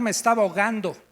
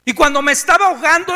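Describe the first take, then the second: First: Said in the usual way. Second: Faster and louder, rising panic; drowning man's panic building; urgent. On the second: A narrator's reading. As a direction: push it like you're going under.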